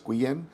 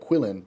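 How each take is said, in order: First: The double L is said as a Y sound. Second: The double L is said as an L sound. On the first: This is the Spanish way of saying the name. "the two L's give a Y sound in Spanish" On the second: This is the English way of saying the name. "in English I feel it'd be like Quillen"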